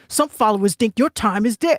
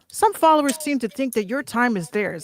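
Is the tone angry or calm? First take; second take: angry; calm. First: It is read angrily and aggressively. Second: It is read calmly, without anger.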